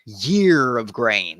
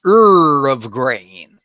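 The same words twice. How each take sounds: First: "year" said slowly with a y glide; ear with a y. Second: "Ur" said as a slow loud er sound, rising; mispronounced ear. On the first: Closer version of the Ephraimite password, slow careful demo. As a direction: slowly say "year of grain" starting with y. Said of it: "would probably be closer to it". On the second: Ephraimites failing the bridge password, slow mispronunciation. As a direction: stretch "Ur of grain" with an er vowel. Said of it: "So they say". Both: Shown as a demonstration.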